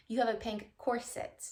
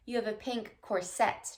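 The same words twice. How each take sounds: First: "corset" as COR-sit; weight on the start of "corset", soft i after; the corrected way, "corset" stressed on COR; stress on first syllable. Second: "corset" as cor-SET; the rejected way, "corset" stressed on SET; stress on second syllable. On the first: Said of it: "Putting the emphasis on the first syllable with the soft I". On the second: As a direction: put the weight on the end of "corset". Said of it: "emphasis or the accent on the second syllable". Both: Shown as a demonstration.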